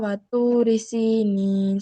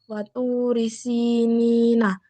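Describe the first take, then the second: First: The final vowel is dropped at the stop. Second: The final word ends with a vowel. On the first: "Dibaca watu risinin, soalnya bertemu dengan wakof"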